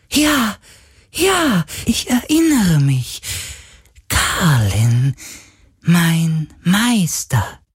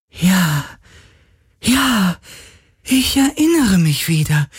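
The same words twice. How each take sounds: First: Sehr hohe, jubelnde Geisterstimme; überglücklich wiedererkennen; freudiger Geist. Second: Hohe, staunende Geisterstimme; erinnernder Geist. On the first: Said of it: "sagte der Geist plötzlich freudig". (sehr hohe, freudige Geisterstimme) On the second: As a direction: langsam wieder erkennen. (hohe Geisterstimme, sich erinnernd) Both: Acted.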